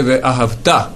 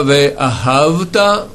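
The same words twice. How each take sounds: First: Ve'ahavta slow, stress on the final -ta; stress on last syllable. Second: Ve'ahavta slow, stress on the early syllable. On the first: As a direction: land on the end of Ve'ahavta. (Ve'ahavta accentué sur la dernière syllabe) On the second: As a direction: lean on the start of Ve'ahavta. (Ve'ahavta accentué au début) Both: Shown as a demonstration. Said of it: "L'accent est sur le, la dernière syllabe".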